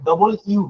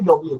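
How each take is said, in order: First: The letter is said as two separate words. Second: The letter is said as one clipped word. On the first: This is how British speakers say it. "তারা ডবল ইউ বলে" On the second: This is how people here usually say it. "আমরা বলি ডব্লিউ"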